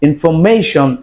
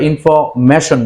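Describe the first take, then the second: First: The ending is said with a long ay sound. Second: The ending is said with a short a sound. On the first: The speaker calls it right. "তাহলে আমরা উচ্চারণ করব information" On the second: The speaker calls it wrong. "আমরা information বলে থাকি"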